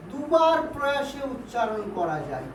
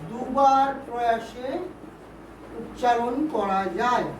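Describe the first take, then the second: First: Said in the usual way. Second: Slow, split into short phrases with pauses; slow dictation. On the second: Shown as a demonstration. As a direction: dictate it slowly for students writing it down. Teacher repeats definition for note-taking.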